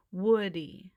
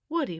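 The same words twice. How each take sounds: First: Drawn-out, loud Woody; slowly. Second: Said in the usual way. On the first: Acted. Buzz patiently repeating the name to the owl, slowly. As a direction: spell it out for the owl. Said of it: "Buzz repeated slowly". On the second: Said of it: "Buzz said".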